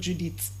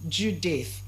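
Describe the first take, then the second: First: The middle consonant is a hard t sound. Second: The middle consonant is a soft th sound. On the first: The speaker calls it wrong. "not Judith" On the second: The speaker calls it right. "It's pronounced as what? Judith"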